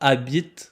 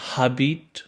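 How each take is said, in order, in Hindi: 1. शब्द स्वर से शुरू होता है, h की आवाज़ नहीं है। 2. शब्द की शुरुआत में h की आवाज़ सुनाई देती है। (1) "आपने सुना होगा मैंने कहा अबित" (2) "मैंने ये नहीं कहा हबीट"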